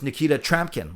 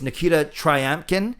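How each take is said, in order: First: The surname has no 'y' glide after the 'r'. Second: The surname has a 'y' glide after the 'r'. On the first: This is the version heard from others. "you don't even say the Y" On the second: This is the common version. "a lot of people say it's"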